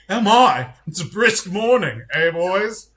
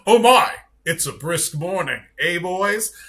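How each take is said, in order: First: It is said in a put-on British accent. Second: It is said in the speaker's ordinary accent.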